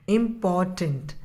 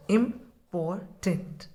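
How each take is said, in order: First: Said in the usual way. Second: "Important" slowly split as "im-por-tant"; syllable by syllable. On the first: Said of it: "Another example I am taking". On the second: Shown as a demonstration. Teacher counting the syllables of "Important" for the children, slow and broken. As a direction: stretch "Important" into three slow beats. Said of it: "you break the spelling three times".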